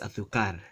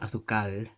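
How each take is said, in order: First: The r is pronounced as a quick tap. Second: The r is not pronounced as a tap. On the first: The speaker calls it right. "but it's azúcar. It's that tap" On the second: The speaker calls it wrong. "It's not azúcar"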